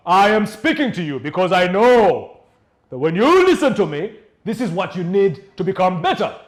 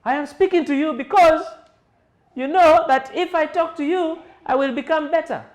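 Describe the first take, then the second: First: Elevated voice. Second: High and loud, straining; high strained voice. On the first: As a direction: project it with full authority. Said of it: "people who elevate their voices". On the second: Trainer contrasting a high, strained, loud voice. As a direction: push it up too high. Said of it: "As compared to". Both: Shown as a demonstration.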